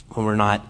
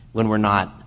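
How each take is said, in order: Both takes have the same delivery.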